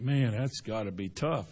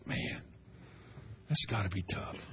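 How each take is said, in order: First: Softer, lower, sympathetic sigh of a line; quiet sympathy. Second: Much softer, lower, almost breathed; hushed sympathy. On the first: Believer quietly pitying someone's hardship, soft and low. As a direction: murmur it as if feeling for them. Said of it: "that you think". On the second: Believer feeling God's burden for others, hushed and low. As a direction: barely voice it, heavy with pity. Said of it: "made you feel that". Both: Retold or imitated.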